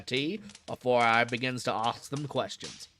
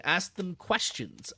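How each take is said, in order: First: Put-on "ask them questions" in the keeper's Cockney accent; Cockney keeper rolling out "ask them questions". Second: Said in the usual way. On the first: Keeper explaining his methods, Cockney accent. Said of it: "This guy is such an accent". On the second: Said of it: "I queried".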